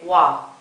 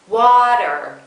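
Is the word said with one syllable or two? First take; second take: one; two. First: The second syllable is cut off. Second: Both syllables are fully voiced. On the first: The speaker calls it wrong. "you might say wa" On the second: The speaker calls it right. "continue voicing through to the second syllable"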